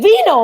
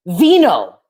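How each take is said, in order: First: Vino much higher and louder, falling hard at the end; exasperated high call of Vino; insistent. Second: Said in the usual way. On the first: Retold or imitated. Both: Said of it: "He's like".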